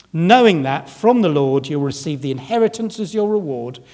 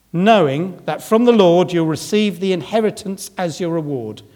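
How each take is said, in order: The two takes are said the same way.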